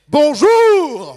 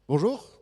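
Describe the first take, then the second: First: It is said with lively, warm energy. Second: It is said flatly, with little energy.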